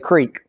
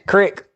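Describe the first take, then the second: First: It is said with a long ee vowel. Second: It is said with a short i vowel.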